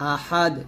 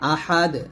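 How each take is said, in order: Both takes have the same delivery.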